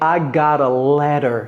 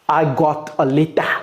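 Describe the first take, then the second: First: The t sounds are soft and gently pronounced. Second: The t sounds are hard and strongly pronounced. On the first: The speaker calls it right. "Soyez doux avec l'anglais" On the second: The speaker calls it wrong. "Non, c'est, on n'est pas à Plaou, on n'est pas à Lagos"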